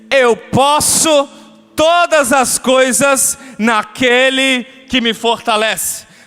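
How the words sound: It is said flatly, like rote repetition.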